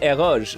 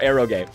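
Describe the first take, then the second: First: It is pronounced like a French loanword. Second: It is pronounced like a Japanese word. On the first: "I pronounce it eroge ... pronouncing uh, eroge as a French loanword" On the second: "or eroge, like kusoge"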